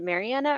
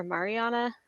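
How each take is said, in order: First: Mariana said as "Mary-Anna"; flat "cat" vowel in the stressed AN of Mariana; first pronunciation option. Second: Mariana said as "Mah-ree-AH-na"; second pronunciation option. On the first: Host checks a guest's name, Mariana as "Mary-Anna". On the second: Host offers alternative name, Mariana as "Mah-ree-AH-na". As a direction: open "father" vowel in the stressed AN of Mariana. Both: Shown as a demonstration. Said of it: "Is it Mariana or Mariana?".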